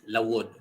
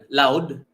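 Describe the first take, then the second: First: The word is said in its full, longer form. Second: The word is said in a shortened, reduced form. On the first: This is how one particular town says it. "But in Hinulangan, one municipality in Southern Leyte, that is Lawod" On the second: This is how most places in the region say it. "that's how we say it in in most places in Leyte"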